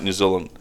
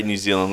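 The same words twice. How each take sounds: First: "New Zealand" with a short i in "Zealand"; Kiwi pronunciation. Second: Said in the usual way. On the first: Retold or imitated. Host imitating his mate's accent, "New Zealand" said Kiwi-style. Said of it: "you say New Zealand like New Zealand". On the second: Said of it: "you say New Zealand like".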